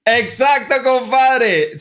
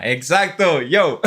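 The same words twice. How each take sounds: First: High, loud burst of excitement; thrilled cheer; excited. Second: Said in the usual way. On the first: Real, not acted. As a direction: shout the confirmation with joy. Guessed origin, excited confirmation.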